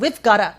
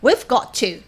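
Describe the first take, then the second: First: "Got to" blends quickly into a soft "gotta". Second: "Got to" is said fully, with a clear t.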